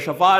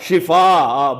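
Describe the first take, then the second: First: The first vowel is a short 'a'. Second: The first vowel is a short 'i'. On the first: The word means illness. The speaker calls it wrong. "शफा नहीं, शफा का माना ही गलत हो जाता है।" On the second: The word means cure. The speaker calls it right. "क्या? शिफा।"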